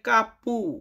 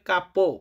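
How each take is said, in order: First: The word ends with a u vowel sound. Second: The word ends with an o vowel sound. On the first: The speaker calls it wrong. "অনেকে বলে কাপু" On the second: The speaker calls it right. "সঠিক উচ্চারণ করতে হবে কাপো"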